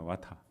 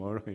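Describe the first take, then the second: First: It is said in a British accent, no r. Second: It is said in an American accent, with r. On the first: "영국 발음은 와타입니다" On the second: "미국으로 넘어가서 water 이렇게"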